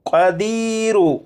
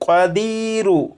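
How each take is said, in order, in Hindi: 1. शब्द छोटे u स्वर पर खत्म होता है। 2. शब्द छोटे u स्वर पर खत्म होता है।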